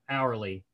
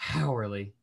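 First: The word starts with no h sound. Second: The word starts with an h sound. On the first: The speaker calls it right. "kind of like a silent H" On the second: The speaker calls it wrong. "It's not hourly"

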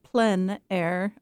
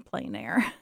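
First: It is said with a French pronunciation. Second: It is said with an English pronunciation. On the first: "comes from the French. So they pronounce it Plein Air" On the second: "or you can also say Plein Air"

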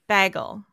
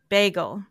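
First: Bagel is said with the local Midwest vowel. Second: Bagel is said with the standard vowel. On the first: The speaker calls it wrong. "so many people around me say it bagel" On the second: The speaker calls it right. "how to say it properly"

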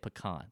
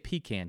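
First: Pecan is said the non-Southern way. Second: Pecan is said the Southern way. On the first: This is how people outside the South say it. The speaker calls it wrong. "We don't say pecan. Get that mess out of here" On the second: This is how people in the South say it. The speaker calls it right. "we say pecan here in the South"

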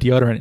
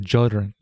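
First: The word begins with a plain D sound. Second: The word begins with a J sound. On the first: "instead of deodorant" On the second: "how the D sounds become J sounds"

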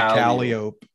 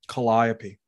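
First: It uses the local New Orleans pronunciation. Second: It uses the standard Greek-based pronunciation. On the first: This is how locals say the street name. "We pronounce it Calliope" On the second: This is the usual pronunciation of the name. "That's Calliope"

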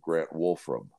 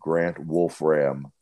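First: The surname is said smoothly without a break. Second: The surname has a full stop between Wolf and Ram. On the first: This is the ordinary family way of saying the name. "his mom probably calls him Grant Wolfram" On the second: This is the playful way the hosts choose to say it. "stop Wolf between the F Ram"

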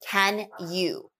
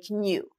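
First: The words are said in full as 'can you'. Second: The words are reduced and linked as 'canya'.

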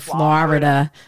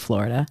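First: The word is said with three syllables. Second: The word is said with two syllables. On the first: The speaker calls it wrong. "I used to say Florida, but I don't say that anymore" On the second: The speaker calls it right. "I say it right, I think"

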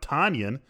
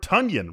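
First: The name does not rhyme with Funyan. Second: The name rhymes with Funyan. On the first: The speaker calls it wrong. "we've been saying it wrong. It's not Robert Tonyan" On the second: The speaker calls it right. "rhyming with Funyan"

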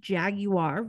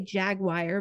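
First: The word is said in a posh, upscale way. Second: The word is said in a plain everyday way. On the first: This is how wealthy people say it. "I think the rich pronunciation is Jaguar" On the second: This is the speaker's own usual way of saying it. "I know I say Jaguar"

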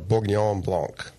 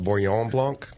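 First: The first G is clearly pronounced. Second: The first G is not pronounced. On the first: The speaker calls it right. "you pronounce the first G" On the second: The speaker calls it wrong. "I used to call it"

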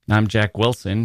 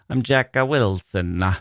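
First: The name is said with an American pronunciation. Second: The name is said with an Italian pronunciation. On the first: This is how people at home say it. "here in America" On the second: This is how people abroad say it. "but in Italy"

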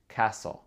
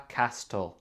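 First: The T in the middle is silent. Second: The T in the middle is sounded. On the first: The speaker calls it right. "le T ici, ce n'est pas prononcé. C'est castle" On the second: The speaker calls it wrong. "C'est pas castle"

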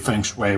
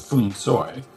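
First: It is said with the usual North American pronunciation. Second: It is said with a Cantonese-style pronunciation. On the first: This is what people commonly say. "which is what people say in North America" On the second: This is how it sounds in Cantonese films. "they say something closer to Fung Soi"

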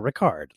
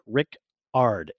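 First: It is said to rhyme with Picard. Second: It is said as two parts, Rick and Ard. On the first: The speaker calls it wrong. "like Jean-Luc Picard" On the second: The speaker calls it right. "he wrote Rick Ard, A-R-D"

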